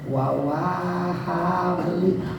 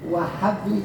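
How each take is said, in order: First: The word begins with a doubled 'wa' syllable. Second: The word begins with a single 'wa' syllable. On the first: The speaker calls it wrong. "jangan kan kebanyakan wawahabli" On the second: The speaker calls it right. "wawnya jangan dua kali"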